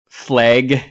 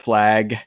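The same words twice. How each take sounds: First: It has a Pacific Northwest accent. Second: It has a standard, non-regional accent.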